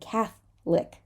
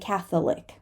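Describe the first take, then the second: First: The middle vowel is dropped, giving two syllables. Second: The middle vowel is pronounced as a separate syllable. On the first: The speaker calls it right. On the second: The speaker calls it wrong.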